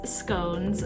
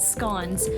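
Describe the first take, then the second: First: The word is said the American way. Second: The word is said the British way.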